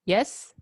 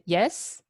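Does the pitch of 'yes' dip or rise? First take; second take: rising; rising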